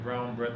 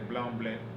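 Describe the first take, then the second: First: The words are said with clear R sounds. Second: The R sounds are replaced by L sounds. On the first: "instead of saying brown bread" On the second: "they say blanc bled"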